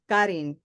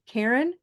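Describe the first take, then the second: First: The name is pronounced with Spanish sounds. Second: The name is pronounced with English sounds. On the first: "but in Spanish" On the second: "my name is English Karen"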